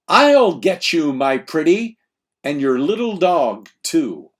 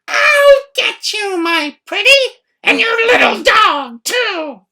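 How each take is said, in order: First: It is said in the speaker's plain voice. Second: It is said imitating the Wicked Witch's voice.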